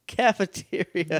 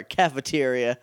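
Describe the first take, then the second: First: Mocking repeat. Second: Said in the usual way. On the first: Shown as a demonstration. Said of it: "Jake, what?". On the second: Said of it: "said again differently".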